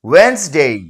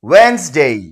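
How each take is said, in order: The two takes are said the same way.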